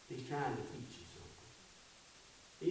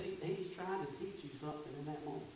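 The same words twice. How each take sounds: First: Whispered, slow and intimate; softly whispered revelation; hushed whisper. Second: Quick, quiet and voiced; soft restatement. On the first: Acted. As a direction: lean in and breathe the line. Repeated line, hushed for effect. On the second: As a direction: say it again gently but briskly. Repeated line after the whisper.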